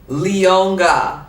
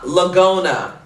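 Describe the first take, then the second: First: The name is said like Le-on-ga. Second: The name is said like La-go-na. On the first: The speaker calls it right. "Get my name right" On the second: The speaker calls it wrong. "It's not Lagona"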